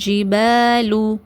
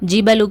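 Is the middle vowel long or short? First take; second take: long; short. First: The middle vowel is long. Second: The middle vowel is short. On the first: The speaker calls it right. "இங்கே நம்ம நெடிலா ஊதுவோம்" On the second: The speaker calls it wrong. "ஜிபலு கிடையாது"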